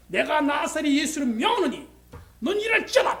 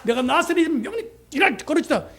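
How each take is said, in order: First: Commanding healing. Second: A somewhat louder solemn command; commanding healing. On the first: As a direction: proclaim it like an authoritative prophet. Commanding healing in Jesus' name. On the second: Missionary repeating his healing command, solemn and declaring. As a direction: declare it with prophetic authority. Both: Retold or imitated.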